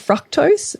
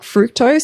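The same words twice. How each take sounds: First: The first vowel does not sound like 'fruit'. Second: The first vowel sounds like the word 'fruit'. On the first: "British in Australia" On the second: "I like fructose"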